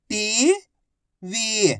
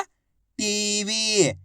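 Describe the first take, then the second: First: टीवी split as टी, long pause, वी; syllable by syllable. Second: टीवी joined as one drawn-out word; blended word. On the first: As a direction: sound out टीवी slowly, टी rising, वी falling. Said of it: "एक अक्षर की पहचान करो, उनका उच्चारण करो". (टीवी को अक्षर-अक्षर अलग बोलें) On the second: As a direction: blend टी and वी into टीवी without a gap. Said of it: "आपस में मिला के पढ़ दो". (टीवी को मिलाकर खींचकर बोलें) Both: Shown as a demonstration.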